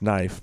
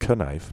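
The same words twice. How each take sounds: First: The word starts with an n sound. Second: The word starts with a k sound. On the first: "That's knife" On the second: "because it should be knife"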